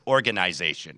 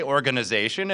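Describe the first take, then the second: First: ORGANIZATION as organ-eye-ZAY-shun; long i in the middle of organization; Canadian pronunciation. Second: ORGANIZATION as organ-uh-ZAY-shun; short, weak vowel in the middle of organization; American pronunciation. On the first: Retold or imitated. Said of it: "every Canadian, uh, hockey broadcaster". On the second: Shown as a demonstration. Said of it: "we say organization".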